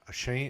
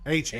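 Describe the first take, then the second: First: The last syllable sounds like 'shane'. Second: The last syllable sounds like 'chan'. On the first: The speaker calls it wrong. "I keep saying it wrong" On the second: The speaker calls it right. "that's what it is"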